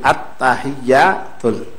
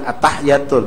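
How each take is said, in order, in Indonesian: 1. Bunyi y ditahan dan ganda. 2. Bunyi y pendek dan tunggal. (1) "ada sabdu pucuk ta, pucuk ya" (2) "bukan at-tahiyatul"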